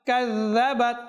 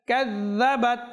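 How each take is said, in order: No difference in how they are said.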